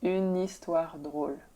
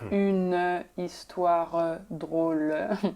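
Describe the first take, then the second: First: The final e sounds are silent. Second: The final e sounds are pronounced as syllables. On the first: The speaker calls it right. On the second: The speaker calls it wrong. "it's not ... That's not how we speak at all"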